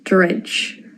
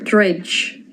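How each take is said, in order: Both takes have the same delivery.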